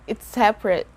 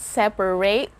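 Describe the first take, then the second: First: The middle A vowel is dropped entirely. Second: The middle A vowel is clearly pronounced. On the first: The speaker calls it right. "a silent letter" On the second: The speaker calls it wrong. "So it's not separate"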